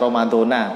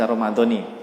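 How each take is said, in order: First: The word ends with an 'a' vowel. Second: The word ends with an 'i' vowel. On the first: The speaker calls it wrong. "nggak boleh dibaca Ramadona" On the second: The speaker calls it right. "tapi dibaca Ramadoni"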